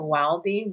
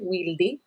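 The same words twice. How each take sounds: First: The name is said with English sounds. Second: The name is said with Spanish sounds. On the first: The speaker calls it wrong. "a lot of people pronounce it Wildy" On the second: The speaker calls it right. "it's pronounced Wildy, Wildy in Spanish"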